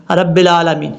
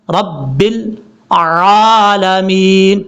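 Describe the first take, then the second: First: Unstretched 'رب العالمین', no throaty ع; wrong recitation. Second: Slow 'رب العالمین' with long throaty ع; correct clear ain. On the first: Teacher repeats people's mistake, mistaken recitation. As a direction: run 'رب العالمین' together with plain a. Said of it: "کتنی بڑی mistake ہوتی ہے". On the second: Teacher shows how to read it, slow correct recitation. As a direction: split 'رب العالمین' and stretch each long vowel. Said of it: "پڑھنے کا طریقہ کیا ہے". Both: Shown as a demonstration.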